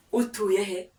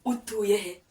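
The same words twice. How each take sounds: The two takes are said the same way.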